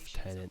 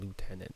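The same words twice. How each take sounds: First: It is said with a British English pronunciation. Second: It is said with an American English pronunciation. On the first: "British English, they actually say lieutenant" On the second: "rather than lieutenant"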